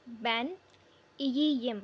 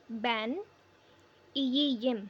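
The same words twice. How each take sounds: The two takes are said the same way.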